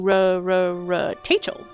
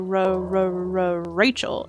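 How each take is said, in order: First: The name starts with a T sound. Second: The name starts with an R sound. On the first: The speaker calls it wrong. "but then I would do" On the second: The speaker calls it right. "my parents would try to say"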